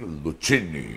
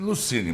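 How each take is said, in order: First: The c is said like a tch sound. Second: The c is said like an s sound. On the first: This follows the name's Italian origin. "você é de descendência italiana, então deveria ser Lucini" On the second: This is the usual local way of saying it. "É sempre Lucini"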